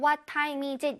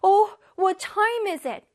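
First: It is said plainly, without emotion. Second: It is said in a flustered, surprised voice.

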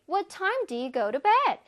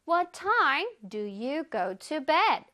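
First: It is said at a faster pace. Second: It is said at a slower pace.

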